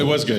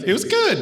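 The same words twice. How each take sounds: First: It is said in a normal voice. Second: It is said in a high-pitched voice.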